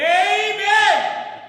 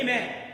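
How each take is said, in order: First: It is said with high intensity. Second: It is said with medium intensity.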